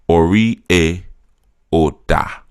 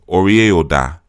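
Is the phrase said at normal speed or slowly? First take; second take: slowly; normal speed. First: It is said slowly. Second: It is said at normal speed.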